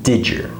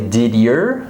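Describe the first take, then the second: First: The D and Y merge into a J sound. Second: The D and Y are pronounced separately. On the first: The speaker calls it right. "I say did your" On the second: The speaker calls it wrong. "I don't say did your"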